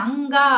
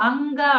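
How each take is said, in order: No difference in how they are said.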